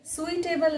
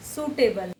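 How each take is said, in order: First: "सुइटेबल" with the i sounded, su-i-table; wrong pronunciation. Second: "सूटेबल" with silent i, soo-table; correct pronunciation. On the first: Teacher warning learners off "सुइटेबल", the i sounded. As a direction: add an i glide in "सुइटेबल". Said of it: "सुइटेबल नहीं". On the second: Teacher giving learners the right "सूटेबल", i silent. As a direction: start "सूटेबल" with a pure soo. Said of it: "आई इसमें silent है". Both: Shown as a demonstration.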